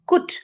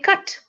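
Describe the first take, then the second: First: The vowel sounds like the one in put. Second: The vowel sounds like the one in but. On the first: The speaker calls it wrong. "whereas cut does not say kut" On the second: The speaker calls it right. "we say cut"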